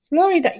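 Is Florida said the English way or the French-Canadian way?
English. Florida is said with an English pronunciation. The speaker calls it right. "that's how you pronounce it"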